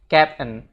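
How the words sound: It is pronounced like the English word captain. The speaker calls it right. "tapi dia bilangnya captain"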